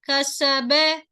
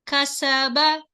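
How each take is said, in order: First: The final vowel is fronted toward 'e'. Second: The final vowel is a plain open 'a'. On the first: The speaker calls it wrong. "some people they do kasabe" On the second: The speaker calls it right. "You must pronounce straight"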